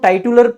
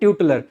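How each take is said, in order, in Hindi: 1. पहला अक्षर 'tie' जैसा सुनाई देता है। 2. पहला अक्षर 'tyoo' जैसा सुनाई देता है। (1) "वैसे इसको टाइटुलर पढ़ सकते हैं आप चाहें तो" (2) "एक्चुअली में इसका सही प्रोनाउंसिएशन है ट्यूटलर"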